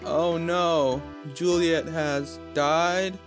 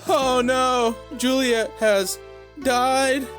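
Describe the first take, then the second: First: It is said quietly. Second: It is said loudly and upset.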